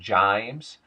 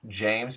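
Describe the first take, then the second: First: The vowel is shifted in a Southern way. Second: The vowel is a standard 'ay' sound.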